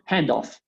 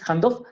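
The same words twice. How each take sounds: First: The stress is on the first part. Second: The stress is on the second part. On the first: The speaker calls it right. "siempre acentúo la primera partícula de esas dos" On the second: The speaker calls it wrong. "La primera palabra no es handoff"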